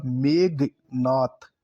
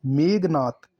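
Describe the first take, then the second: First: Very slow "मेघनाथ", megh then naath; drawn-out "मेघनाथ" with a gap in the middle; syllable by syllable. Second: "मेघनाथ" in one run with plain g; unaspirated g in "मेघनाथ"; wrong pronunciation. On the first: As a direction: split "मेघनाथ" after an aspirated gh. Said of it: "घ आएगा". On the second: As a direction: say "मेघनाथ" as megnath. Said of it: "ग नहीं आएगा". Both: Shown as a demonstration.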